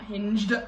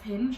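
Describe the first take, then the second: First: The word ends with a d sound. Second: The word ends without a d sound. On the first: The speaker calls it wrong. "not Hinged" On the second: The speaker calls it right. "because it's Hinge"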